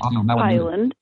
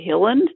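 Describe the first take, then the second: First: The first syllable sounds like 'high'. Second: The first syllable sounds like 'hill'. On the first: The speaker calls it right. "It's one L, so it's Highland" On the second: The speaker calls it wrong. "so many people say Hilland, which is just so wrong"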